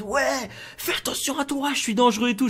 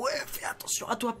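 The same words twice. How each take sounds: First: Mock shouted warning, pitched up; shouting threat. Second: Held-back yell, softer; a yell squeezed down so nobody hears; mock yell. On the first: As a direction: demonstrate a threat without going all out. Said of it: "en criant très fort en mode". (menace criée, à moitié retenue) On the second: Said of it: "j'arrive en gueulant". (faux cri étouffé) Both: Shown as a demonstration.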